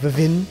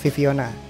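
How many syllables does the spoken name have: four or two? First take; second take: two; four. First: The name is said with two syllables. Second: The name is said with four syllables. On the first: The speaker calls it wrong. "tidak dibaca VVYN, apalagi Vivin" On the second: The speaker calls it right. "Ini bacanya Viviona"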